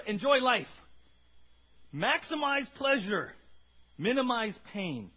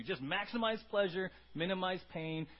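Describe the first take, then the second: First: Slow, loud, drawn-out slogan; Epicurean mantra. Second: Said in the usual way. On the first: Retold or imitated. Preacher voicing the Epicureans' creed, slow and loud. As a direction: proclaim it like a party motto. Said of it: "their mantra". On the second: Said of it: "That's what the Epicureans were into".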